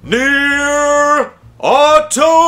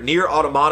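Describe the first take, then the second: First: It is said in a hyped wrestling-announcer voice. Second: It is said in a plain reading voice.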